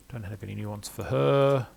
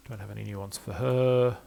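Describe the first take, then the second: No difference in how they are said.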